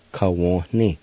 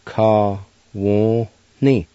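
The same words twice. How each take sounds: First: Said in the usual way. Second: "ka, wo, ni" as separate drawn-out syllables; syllable-by-syllable pronunciation. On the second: Shown as a demonstration. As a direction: sound out "ka, wo, ni" one by one, N slightly nasal. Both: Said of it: "pronounced like this".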